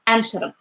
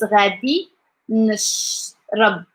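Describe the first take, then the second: First: The phrase is squeezed into one short fast word. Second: Every syllable of the phrase is said in full. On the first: "people who like go fast with speaking" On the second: "the whole one is"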